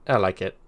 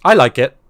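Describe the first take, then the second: First: Said in the usual way. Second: Emphatic. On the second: Real, not acted. Repeating praise for chat.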